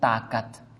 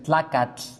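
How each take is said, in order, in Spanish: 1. La palabra empieza y termina con el sonido 't' simple. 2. La palabra empieza y termina con el sonido 'tl'. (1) "en Guatemala se decía tacat" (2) "en náhuatl se dice tlacatl"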